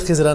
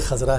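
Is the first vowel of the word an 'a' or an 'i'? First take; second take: i; a. First: The first vowel sounds like 'i'. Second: The first vowel sounds like 'a'. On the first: The speaker calls it wrong. "हम उसको पढ़ लेते हैं रवानी में ख़िज़रा। ये ख़िज़रा नहीं है" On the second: The speaker calls it right. "असल लफ्ज़ है ख़ज़रा"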